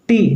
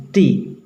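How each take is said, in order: First: टी with tongue on the roof of the mouth; hard T. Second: टी with the tongue close to the teeth; soft T. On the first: Teacher shows students what to avoid, hard T. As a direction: hit a hard, retroflex टी. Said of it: "टी नहीं". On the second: Teacher corrects the hard letter for students, soft T. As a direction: lighten टी, tongue forward behind the teeth. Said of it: "दांत के करीब ले जाएंगे". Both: Shown as a demonstration.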